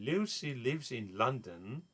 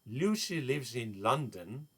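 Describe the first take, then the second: Both takes have the same delivery.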